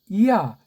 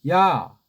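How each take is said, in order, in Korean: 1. 모음이 나뉘어서 두 음절이에요. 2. 모음이 합쳐져서 한 음절이에요. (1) "이오타를 살리면 이야, 이야 요렇게 발음해줘야 된다" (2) "제가 그냥 야"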